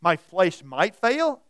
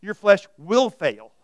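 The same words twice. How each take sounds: First: Slow "My flesh might fail", leaning loudly on "might"; questioned "might". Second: Loud, slow "Your flesh will fail", punching "will"; guaranteed "will". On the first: Preacher quotes the lyric to dispute it, stressing "might". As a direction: hold up "might" as doubtful. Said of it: "about the flesh says". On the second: Preacher corrects the lyric's might, loud stress on "will". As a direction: hammer "will" as a certainty. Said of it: "you can guarantee it". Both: Shown as a demonstration.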